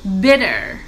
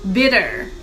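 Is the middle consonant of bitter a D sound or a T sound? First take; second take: D sound; D sound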